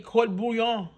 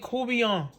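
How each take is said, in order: First: It is pronounced closely following its written spelling. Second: It is pronounced in the local Louisiana way. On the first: Some other people say it this way. "some of you might say court bouillon. Because it's spelled C O U R T B O U I L L O N" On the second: This is how locals say it. "But we pronounce it courtbouillon"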